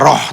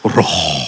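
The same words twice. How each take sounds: First: It is said in a plain, ordinary voice. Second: It is said in a deep, solemn voice. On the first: The speaker calls it wrong. "gak bisa roh" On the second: The speaker calls it right. "tapi roh"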